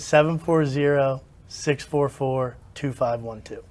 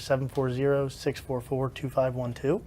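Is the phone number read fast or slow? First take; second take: slow; fast. First: The number is read at a slower pace. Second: The number is read at a quicker pace. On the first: The speaker calls it right. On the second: The speaker calls it wrong.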